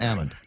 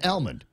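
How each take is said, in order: First: The L sound is dropped from the word. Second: The L sound is pronounced in the word. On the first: The nut has fallen to the ground. "that knocks the L out of it, so that th- now it becomes an almond" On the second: The nut is still on the tree. "in the tree it's an almond"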